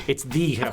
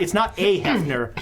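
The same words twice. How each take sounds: First: "the" said as a stressed "thee" before Hefner. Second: "a" said as a stressed "ay" before Hefner. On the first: Game master corrects the article, stressing "the". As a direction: lean on "the" as the one and only, said "thee". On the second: Game master corrects the article, stressing "a". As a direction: lean on "a" as the wrong article, said "ay". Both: Shown as a demonstration.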